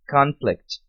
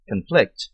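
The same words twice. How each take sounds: First: Conflict stressed on the first syllable, CONflict; noun stress. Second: Conflict stressed on the second syllable, conFLICT; verb stress. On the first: (Conflict com tônica na primeira sílaba, CONflict) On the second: (Conflict com tônica na segunda sílaba, conFLICT) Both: Shown as a demonstration. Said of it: "sílaba tônica diferente".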